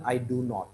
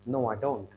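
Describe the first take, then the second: First: "do not" as two full words; uncontracted. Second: "don't" as one syllable; contracted. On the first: Teacher shows what to avoid, uncontracted "do not". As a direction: separate "do" and "not". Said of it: "Rather than I do not". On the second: Teacher models a student's answer, contracted "don't". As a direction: answer with a short, lower "don't". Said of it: "Have a practice of using contractions". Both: Shown as a demonstration.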